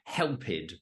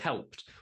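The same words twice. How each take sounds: First: The ending is said as an extra 'id' syllable. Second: The ending is said as a plain 't' sound. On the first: The speaker calls it wrong. "we don't say like helped" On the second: The speaker calls it right. "we say helped"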